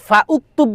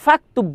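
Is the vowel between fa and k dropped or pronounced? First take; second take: pronounced; dropped. First: A separate u vowel is heard after fa. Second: Fa runs straight into the k sound. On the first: The speaker calls it wrong. "ফা উক্তুব বলি কখনো না" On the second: The speaker calls it right. "ফা এসে সরাসরি কাফকে ধরতেছে"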